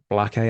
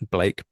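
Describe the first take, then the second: First: The name is not said like 'Blake'. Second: The name is said like 'Blake'. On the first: It follows how a colleague says it. "Josh is rubbing off on me at this point" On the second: It is the speaker's own habitual way. "I've always pronounced it Blake"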